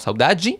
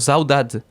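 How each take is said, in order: First: It is said in a Brazilian Portuguese accent. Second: It is said in a European Portuguese accent. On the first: "Brasil, que es más como saudade" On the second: "en Portugal, que es como saudade"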